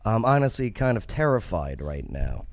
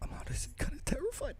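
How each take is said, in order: First: It is read in his own normal voice. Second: It is said in an imitation of her voice.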